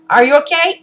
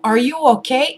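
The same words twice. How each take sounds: First: It is said flatly, without warmth. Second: It is said warmly, with concern. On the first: The helper feels no empathy for the person. "in his tone of voice, you will hear no empathy" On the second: The helper feels empathy for the person. "but no, like, oh"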